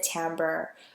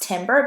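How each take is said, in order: First: The word is said unlike its spelling. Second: The word is said just as it is spelled. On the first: The speaker calls it right. "but actually you pronounce it timbre" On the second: The speaker calls it wrong. "I know that looks like it's it uh it, it should be pronounced timbre"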